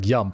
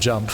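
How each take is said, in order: First: It is said with a Swedish accent. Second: It is said with an English accent.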